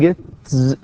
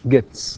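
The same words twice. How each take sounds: First: The final sound is a voiced z. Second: The final sound is a voiceless s. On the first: The speaker calls it wrong. "حتى لو حاولت تنطقها ز بيكون من الصعب" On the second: The speaker calls it right. "gets not gets"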